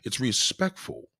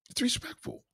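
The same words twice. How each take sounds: First: Said in the usual way. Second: Way up high, soft and dainty; high thin mock voice. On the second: Shown as a demonstration. Streamer mimics a lady's reply in falsetto. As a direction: chirp it in a falsetto.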